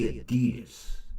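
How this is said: It is said the American way. "they don't say Adidas"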